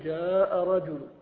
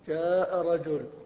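First: The last word ends with a faint, partial vowel. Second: The last word ends bare, with no final vowel. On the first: "الروم فإنك تأتي ببعض الحركة وتحذف بعض الحركة" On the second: "تقف بالوجه الأول وهو التسكين"

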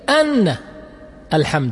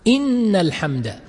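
First: The first word begins with an 'a' vowel. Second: The first word begins with an 'i' vowel. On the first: It gives the reason for the preceding words. "ويصح بفتحها وتصبح تعليلية" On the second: It starts a new, general statement. "يصح الوجهان بكسر الهمزة، وهذا لا شك أنه أفضل"

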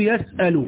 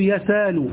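First: A glottal stop is heard in the middle. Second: A long vowel replaces the glottal stop. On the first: "في المضارع تثبت" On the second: "وتقلب ألفا"

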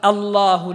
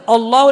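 First: The opening glottal stop sounds light and thin. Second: The opening glottal stop sounds heavy and thick. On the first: The speaker calls it right. "الهمزة ترقق واللام التي وحدها تفخم" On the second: The speaker calls it wrong. "ما يصلح الله الآن فخمت الهمزة"

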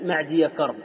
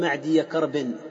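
First: The name ends in a short -a without n. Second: The name ends in -in with an n. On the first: The speaker calls it right. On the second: The speaker calls it wrong.

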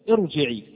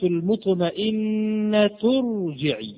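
First: The word starts with a glottal stop and i. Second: The word joins the previous word without a glottal stop. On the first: The word begins the recitation. "كسر عارض للابتداء" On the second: The word is joined to what comes before. "هل ظهرت هنا الهمزة؟ لا"

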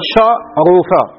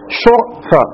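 First: The u vowel sits on the second letter. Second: The u vowel sits on the first letter. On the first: This is the original unreduced form. "شو كان شرفة" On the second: The form is lightened by moving the vowel. "بالنقل، حذفنا حركة الفاء ونقلنا حركة العين إليها"

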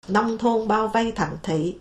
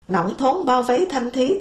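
First: The tones are said in standard Vietnamese. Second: The tones are shifted in a Thạch Thất accent. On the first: "Tức là" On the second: "thạch thất hóa mất rồi"

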